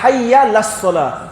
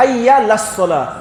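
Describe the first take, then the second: First: The ain sound before la is left out. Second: The same.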